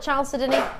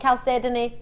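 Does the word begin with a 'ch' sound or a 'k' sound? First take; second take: ch; k. First: The word begins with a 'ch' sound. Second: The word begins with a 'k' sound. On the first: "I'm going to say ch for Chalcedony" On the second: "Some people call it"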